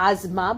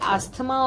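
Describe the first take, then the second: First: The middle consonant is a z sound. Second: The middle consonant is an s sound. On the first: "इसे actually एजमा बोला जाता है, if you gonna see the pronunciation" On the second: "but we से एस्थमा also"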